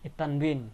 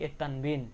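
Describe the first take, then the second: No difference in how they are said.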